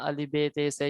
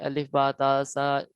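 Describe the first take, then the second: First: The letter names end in an 'e' vowel. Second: The letter names end in an 'a' vowel. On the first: This is the Urdu way of reading the letters. The speaker calls it wrong. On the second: This is the Arabic way of reading the letters. The speaker calls it right.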